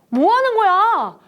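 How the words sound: It is said in a startled, surprised voice. The speaker calls it right. "깜짝 놀라면서"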